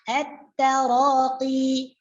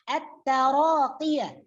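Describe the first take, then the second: First: The word ends on a long 'i' vowel. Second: The word ends with a full 'yah' syllable. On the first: The reader stops on this word. "Jadi at-taraqi, panjangnya dua harakat" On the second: The reading continues without stopping. "di sini bukan huruf mad akhirnya ya, tetapi huruf ya"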